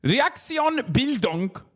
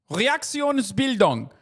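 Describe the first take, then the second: First: Said in the usual way. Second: Reaktionsbildung said slowly, higher, with German sounds; German pronunciation. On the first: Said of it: "repeats the German term". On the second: Shown as a demonstration. Streamer repeating the German term for chat, careful German. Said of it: "in German is known as".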